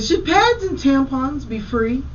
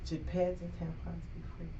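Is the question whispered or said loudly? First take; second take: loudly; whispered. First: The question is said out loud. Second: The question is whispered quietly.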